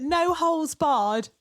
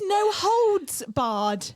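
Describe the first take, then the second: First: "no holes barred" said slowly with holes; drawn out "no holes barred", holes without d; wrong version. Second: "no holds barred" very slow, holds with d; correct version. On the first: Host quoting her own lifelong mistake, slow. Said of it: "I have been saying". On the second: Host stating the right phrase, very slowly. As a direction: stretch out "no holds barred", landing the d. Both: Shown as a demonstration.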